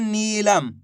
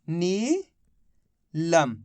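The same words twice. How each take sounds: First: नीलम with a long, held नी; pronunciation demo. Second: नीलम as rising नी, long pause, then लम; syllable split. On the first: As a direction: sound out नीलम clearly for dictation. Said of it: "इसका उच्चारण हो रहा है". (नीलम का साफ़ उच्चारण, लंबी ई के साथ) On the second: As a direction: read नीलम very slowly in two separated parts. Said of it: "तो मिलके बन गया". (नीलम को नी और लम में तोड़कर, रुककर) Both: Shown as a demonstration.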